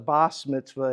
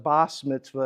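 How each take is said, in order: First: It is said with an S sound, Ashkenazi style. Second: It is said with an S sound, Ashkenazi style.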